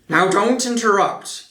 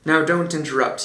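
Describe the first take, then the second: First: It is read in a put-on character voice. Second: It is read in the reader's ordinary voice. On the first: The speaker calls it right. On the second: The speaker calls it wrong.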